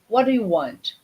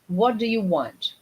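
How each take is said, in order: First: 'What' and 'want' are stressed; 'you' is soft. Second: The same.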